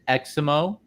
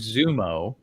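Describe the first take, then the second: First: The name begins with an 'eks' sound. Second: The name begins with a 'z' sound. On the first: "some people pronounce it" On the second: "I might be pronouncing it wrong"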